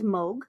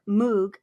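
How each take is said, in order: First: The vowel is not an 'oo' sound. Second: The vowel is a long 'oo' sound. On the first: This is how the name is really said. The speaker calls it right. "but it's actually pronounced as Moog" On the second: This is how the spelling suggests it sounds. The speaker calls it wrong. "So it has two O's. So it looks like it's Moog"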